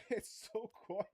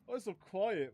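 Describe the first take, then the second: First: Slow, laughing through words. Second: Loud, high disbelief; surprised shout. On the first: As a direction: drag it out while laughing. Laughing at quiet exhaust. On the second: Surprised by quiet exhaust. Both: Real, not acted.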